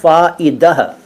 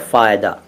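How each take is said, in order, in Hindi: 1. शब्द का अंत एक साँस वाली 'ah' ध्वनि से होता है। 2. शब्द का अंत एक सादी 'a' ध्वनि से होता है। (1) "असल में वो शब्द तो है फ़ाइदह" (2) "लेकिन लोग कहते हैं फ़ायदा"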